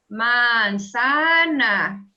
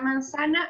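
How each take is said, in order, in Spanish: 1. La palabra se dice despacio y alargada. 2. La palabra se dice a velocidad normal.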